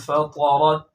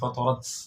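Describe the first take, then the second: First: The final t has a slight, soft release. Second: The final t has a strong, exaggerated release. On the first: The speaker calls it right. "तो इसलिए आप पढ़ेंगे" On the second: The speaker calls it wrong. "उनकी तरह पढ़ना शुरू कर दिया ... ऐसा गलत"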